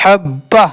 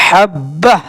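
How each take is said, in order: The two takes are said the same way.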